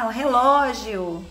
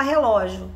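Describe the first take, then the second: First: "relógio" with a full "gi-o" ending; careful model. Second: "relógio" run together as "relojo"; child's attempt. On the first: Shown as a demonstration. Teacher repeating the word for a child, carefully articulated. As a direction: say "relógio" fully, leaning on the LÓ. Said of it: "A gente fala". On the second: Teacher imitating a child's attempt, slightly slurred ending. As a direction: say "relógio" quickly, dropping the i before the last o. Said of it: "A criança pode até tentar falar".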